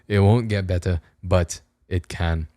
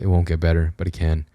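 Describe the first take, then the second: First: It is said in a put-on foreign accent. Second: It is said in the speaker's normal accent. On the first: "slipping into an Australian accent a bit too much, maybe an Irish one as well" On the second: "back to normal"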